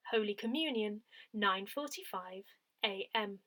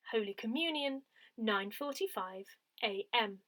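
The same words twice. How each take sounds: The two takes are said the same way.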